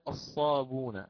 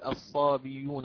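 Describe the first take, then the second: First: The final vowel follows directly without a break. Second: A y-glide comes before the final vowel. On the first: "فقرأنا الصابون عوضا على الصابئون" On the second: "لا أستطيع أن أقول الصابيون هكذا"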